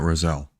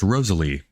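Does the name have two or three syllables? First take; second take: two; three. First: The name is said with two syllables. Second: The name is said with three syllables. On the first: The speaker calls it wrong. "not Roselle" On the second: The speaker calls it right. "it's pronounced Rosalie"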